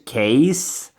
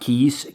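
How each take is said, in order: First: The vowel sounds like 'ay' in 'case'. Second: The vowel sounds like 'ee' in 'keys'. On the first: The speaker calls it right. "That's how you pronounce it" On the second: The speaker calls it wrong. "not keys"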